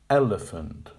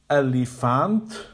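First: The second and third vowels are reduced to schwa. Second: The second and third vowels are full vowels. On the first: The speaker calls it right. "but elephant" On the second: The speaker calls it wrong. "not elephant"

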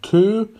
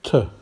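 First: The word has a full 'oo' vowel. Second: The word has a reduced schwa vowel. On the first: The speaker calls it wrong. "not two" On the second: The speaker calls it right. "but to"

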